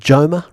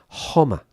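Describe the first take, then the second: First: The word begins with an English J sound. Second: The word begins with a breathy H sound. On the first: "You would think Joma, right? If you were an English speaker" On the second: "but of course in Spanish, Homa"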